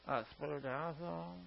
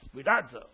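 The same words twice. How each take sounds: First: The word is said flatly, with little energy. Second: The word is said forcefully, with lots of energy. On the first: The speaker calls it wrong. "you can't spoudazo" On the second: The speaker calls it right. "you got to get it out"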